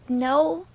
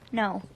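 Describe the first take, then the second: First: The voice rises at the end. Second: The voice falls firmly at the end.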